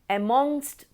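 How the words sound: It is said with an Indian pronunciation.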